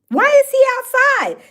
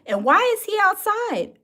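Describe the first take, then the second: First: Higher, louder disbelieving why; incredulous exclaim. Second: Said in the usual way. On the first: Real, not acted. Asking the chat why he is outside, in loud disbelief. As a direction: throw the question out in disbelief.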